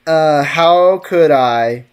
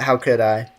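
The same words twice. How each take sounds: First: Drawn-out "how could I", very slow; slow mock-dramatic. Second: Said in the usual way. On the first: Shown as a demonstration. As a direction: stretch "Uh, how could I?" out theatrically. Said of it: "repeated line, slow dramatic take". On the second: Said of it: "repeated line, first take".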